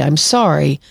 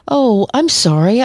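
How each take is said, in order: First: Said in the usual way. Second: Higher, slow, falsely sweet sorry with a rising tune; passive-aggressive apology. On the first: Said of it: "but it's far from insincere". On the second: Retold or imitated. Therapist mocking a manipulative friend, slow fake-sweet apology. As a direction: purr a fake apology you don't mean. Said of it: "Kinda sent shivers up and down my spine".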